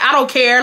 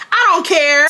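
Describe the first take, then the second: First: Retold, mildly emphatic brush-off; dismissive retort. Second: Loud, high, exasperated insistence; emphatic retort. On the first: Speaker telling her friend she doesn't care, dismissive. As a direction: brush it off with raised pitch. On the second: Retold or imitated. Speaker insisting to her friend she doesn't care, exasperated and loud. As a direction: drive it home louder and higher. Repeats retort more forcefully.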